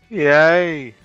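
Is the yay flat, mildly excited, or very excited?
mildly excited. It is said with slightly more excitement.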